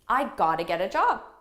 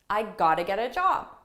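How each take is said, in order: First: The words are reduced and run together quickly. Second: The words are reduced and run together quickly.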